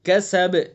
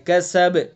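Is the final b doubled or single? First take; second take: single; single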